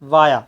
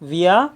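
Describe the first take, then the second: First: The word begins with an 'ah' sound. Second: The word begins with an 'ee' sound. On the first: "कुछ देश में जो pronunciation जो होता है वो वाया होता है" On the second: "but British में जो होता है वो विया होता है"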